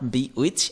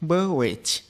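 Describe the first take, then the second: First: It is said as two separate words, bee witch. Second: It is said as one word with a short first vowel. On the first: The speaker calls it wrong. "এটা not বি উইচ" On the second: The speaker calls it right. "এটা হচ্ছে বেওয়েচ"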